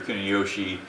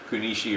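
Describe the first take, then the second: First: It is said with the Japanese pronunciation. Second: It is said with the Okinawan pronunciation.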